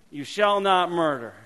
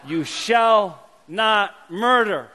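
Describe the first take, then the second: First: Said in the usual way. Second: You shall not murder, each word drawn out slowly; slow and solemn. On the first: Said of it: "repeated at normal pace". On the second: Shown as a demonstration. Pastor teaching the congregation the commandment, slow and solemn. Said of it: "teaching the commandment slowly".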